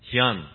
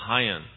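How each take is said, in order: First: The name is said with its Korean pronunciation. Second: The name is said with an Anglicized pronunciation. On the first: This is the family's original name. "our last name is actually pronounced Hyun, like the car" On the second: This version is easier for Western speakers. "he changed it to Hyun"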